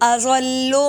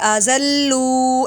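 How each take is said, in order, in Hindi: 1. शब्द में स्वर छोटे रखे जाते हैं। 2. शब्द में स्वर लंबा खींचा जाता है।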